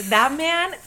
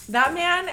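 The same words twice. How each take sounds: The two takes are said the same way.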